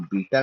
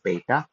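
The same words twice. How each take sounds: First: बीटा with a long "ee", BEE-ta; common mispronunciation. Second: Beta with an "ay" vowel, BAY-ta; corrected pronunciation. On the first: Teacher quoting the common mistake, बीटा said "BEE-ta". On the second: Teacher correcting learners' Greek letter, beta said "BAY-ta". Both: Shown as a demonstration. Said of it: "बीटा नहीं, it's beta".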